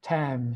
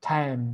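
Both takes have the same delivery.

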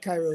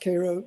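First: The first syllable sounds like 'kai'. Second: The first syllable sounds like 'kay'. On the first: It names the city in Egypt. "like Cairo, Egypt" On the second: It names the speaker's hometown. "pronounced Cairo like the syrup, like K-A-R-O"

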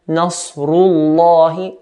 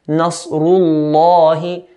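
First: The L sound is heavy and deep. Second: The same.

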